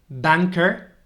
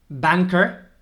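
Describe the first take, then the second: The two takes are said the same way.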